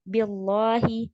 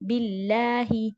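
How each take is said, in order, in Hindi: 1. L अंग्रेज़ी के L जैसा सुनाई देता है। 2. L हल्का अरबी L है। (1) "कुछ इंग्लिश एक्सेंट यहाँ पर नहीं निकालना है ... दिस इज रॉन्ग" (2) "ये लाइट है इसीलिए"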